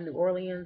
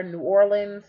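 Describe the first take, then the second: First: "New Orleans" spelled out as New Or-lee-ans, softer; New Orleans, the wrong way. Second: "New Orleans" gezegd als "New Or-lens", twee lettergrepen; "New Orleans" run together as New Or-lens; New Orleans, her way. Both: Shown as a demonstration. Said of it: "not New Orleans".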